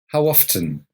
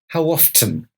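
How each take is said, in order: First: The T in often is clearly pronounced. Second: The same.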